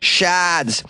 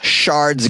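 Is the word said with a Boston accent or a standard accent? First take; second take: Boston accent; standard accent. First: The word is said in a Boston accent, no r. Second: The word is said in a standard accent, r pronounced.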